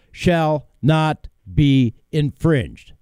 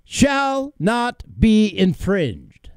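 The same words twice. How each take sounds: First: Slow, evenly spaced words; slow reading. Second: SHALL NOT BE INFRINGED slow, each word set apart, higher; emphatic repeat. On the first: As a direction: read each word slowly and separately. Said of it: "I'm going to read it slow". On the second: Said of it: "the last part of that sentence once again". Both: Shown as a demonstration.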